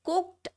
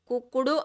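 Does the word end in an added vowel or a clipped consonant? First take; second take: clipped consonant; added vowel. First: The word ends in a short clipped t sound. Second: The word ends with an added u vowel. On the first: The speaker calls it right. "ఇది కుక్డ్ అనాలి" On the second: The speaker calls it wrong. "కుక్కుడు అనకూడదు"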